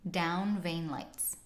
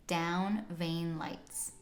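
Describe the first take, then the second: The two takes are said the same way.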